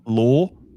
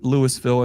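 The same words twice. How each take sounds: First: It is said like 'Lull-vull', with two syllables. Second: It is said like 'Lewis-ville', with three syllables. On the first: The speaker calls it right. "It's Louisville. ... U L L, comma, dash V U L L" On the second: The speaker calls it wrong. "It's not Louisville"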